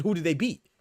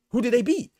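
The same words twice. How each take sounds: First: Said in the usual way. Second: Same question again, higher and louder; louder, higher repeat. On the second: Retold or imitated. Challenging fans of Boots, louder higher repeat. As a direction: push it louder in disbelief. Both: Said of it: "because I said".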